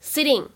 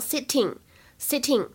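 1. 中间的 t 听起来接近 d。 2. 中间的 t 是清晰的 t 音。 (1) "这个t 的发音呢会稍微偏向d 一点，所以呢就会读成sitting" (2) "如果大家练的是英式英语，那么你可以把它读成sitting"

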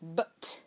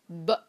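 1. 末尾的 t 明显发音。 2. 末尾的 t 被吞掉，不发音。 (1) "一般我们不会说but" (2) "我们会说but"

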